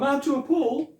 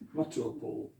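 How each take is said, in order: First: The first vowel in Matua is long. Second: The first vowel in Matua is short. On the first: The speaker calls it wrong. "you hear this misused all the time" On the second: The speaker calls it right. "that short ah sound"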